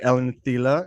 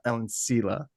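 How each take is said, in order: First: The s sound is lisped like th. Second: The s sound is a plain s. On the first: The speaker calls it right. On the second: The speaker calls it wrong.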